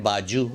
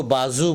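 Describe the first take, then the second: First: बाजू said as "baa-joo"; wrong pronunciation. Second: बाजू with z, "baa-zoo"; correct pronunciation. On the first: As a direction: put a j in बाजू. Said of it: "ये गलत है". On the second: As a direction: say बाजू with z, not j. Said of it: "इसको बाजू बोलना चाहिए". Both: Shown as a demonstration.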